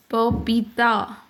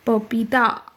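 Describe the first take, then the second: First: पपीता said slowly, each syllable pa-pee-ta spelled out; careful correct spelling. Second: Said in the usual way. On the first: Shown as a demonstration. Teacher giving children the correct form of पपीता, slowly. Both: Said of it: "सही वर्तनी में बच्चों को लिखना सिखाना है".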